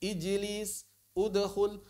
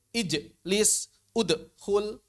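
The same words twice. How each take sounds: First: Ijlis and udkhul in one smooth run; ijlis, udkhul, no gap after the bounce; joined without pause. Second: Ijlis and udkhul split after the bounce; ij-lis, ud-khul, broken in two; wrongly paused qalqalah. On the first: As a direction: model the echo flowing straight into the next syllable. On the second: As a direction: show the mistake: gap inside ijlis, udkhul. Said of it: "Jangan dijeda". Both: Shown as a demonstration.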